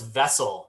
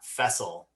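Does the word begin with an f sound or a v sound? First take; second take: v sound; f sound. First: The word begins with a voiced v sound. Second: The word begins with a voiceless f sound. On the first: The speaker calls it right. "it's vessel" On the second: The speaker calls it wrong. "not fessel"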